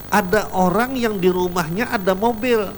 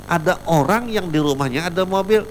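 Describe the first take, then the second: No difference in how they are said.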